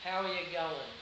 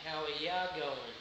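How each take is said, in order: First: Said in the usual way. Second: "ya" said as a short, loose "ya" in place of "you". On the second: Shown as a demonstration. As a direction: swallow "you" into a quick "ya". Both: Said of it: "you equals ya".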